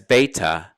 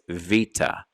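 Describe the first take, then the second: First: The word starts with a b sound. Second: The word starts with a v sound. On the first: "So it goes from a B to a V sound" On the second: "they also pronounce it today as vita"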